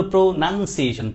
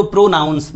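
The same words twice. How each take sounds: First: প্রোনাউন্সিয়েশন with a short "nun", not "noun"; the noun প্রোনাউন্সিয়েশন, syllables clearly sounded out; noun pronunciation. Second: প্রোনাউন্স with a full "ow" in the second syllable; the verb প্রোনাউন্স, "nouns" sounded out; verb pronunciation. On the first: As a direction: say প্রোনাউন্সিয়েশন as pro-nun-see-AY-shun. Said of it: "নাউন হলো". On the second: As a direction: say প্রোনাউন্স clearly as pro-NOWNS. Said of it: "খেয়াল রাখতে করেন". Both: Shown as a demonstration.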